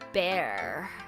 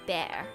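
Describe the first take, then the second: First: The word is said in an American accent. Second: The word is said in an Australian accent. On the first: "Americans would say bear and beer" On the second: "So in Australia, we say bear"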